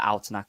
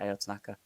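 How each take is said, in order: First: The first name is one syllable like ow. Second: The first name is spelled out as letters. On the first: The speaker calls it right. "It's like bao without the b" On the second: The speaker calls it wrong. "I've got A O in my head now"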